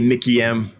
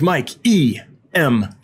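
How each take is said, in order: First: The name is read as Mickey, then M. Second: The name is read as Mike, E, then M. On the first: The speaker calls it right. "it's Mickey M is correct pronunciation" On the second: The speaker calls it wrong. "I was like"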